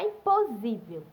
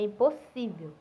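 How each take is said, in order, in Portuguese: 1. A consoante do meio é um z sonoro. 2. A consoante do meio é um s surdo. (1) "S tem som de Z, não é impossível" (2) "com dois S e o S exercendo a sua função"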